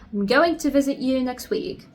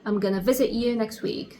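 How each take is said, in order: First: Every word of 'I'm going to' is fully pronounced. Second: 'Going to' is reduced to 'gonna'. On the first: "instead of saying I'm going to" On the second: "you're going to say I'm gonna"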